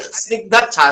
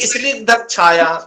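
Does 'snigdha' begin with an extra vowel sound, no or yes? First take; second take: no; yes. First: No extra vowel is sounded before the first consonants. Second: An extra vowel is sounded before the first consonants. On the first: The speaker calls it right. "इस ई को आप ... silent" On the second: The speaker calls it wrong. "अब वो कहेंगे स्निग्ध छाया"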